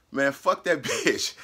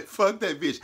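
First: Slow, chuckling through the insult; can't keep a straight face on it; laughing retelling. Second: Said in the usual way. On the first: Retold or imitated.

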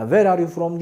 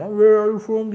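First: Said in the usual way. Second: Louder insistent question. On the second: Shown as a demonstration. Teacher showing learners the question always works, said louder. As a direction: ask it louder and higher, pressing the point. Third, more insistent repeat.

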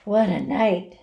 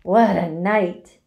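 First: Hoarse. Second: Gloating. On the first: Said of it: "he repeated hoarsely". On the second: Rat boasting of his feast. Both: A narrator's reading.

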